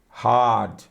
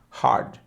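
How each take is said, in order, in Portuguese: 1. O R é omitido e a vogal é alongada. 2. O R é pronunciado depois da vogal. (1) "Esse R, hard, ele é trocado apenas duplicando o som da, da letra que vem antes" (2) "O R sempre tem som de R do interior"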